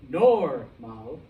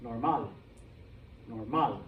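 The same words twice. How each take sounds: First: Normal with a loud, long NOR; stress on first syllable. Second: Normal as nor-MAL, lower, falling; stress on last syllable. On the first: Teacher shows what it is not, normal stressed on NOR. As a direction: punch NOR in normal, wrongly. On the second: Teacher shows the rule being followed, normal stressed on MAL. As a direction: put the weight on MAL in normal. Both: Shown as a demonstration. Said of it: "the stress is on the last syllable".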